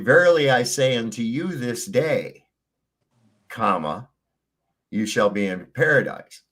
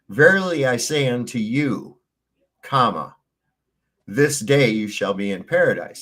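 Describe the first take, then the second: First: The break comes after 'this day'. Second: The break comes before 'this day'.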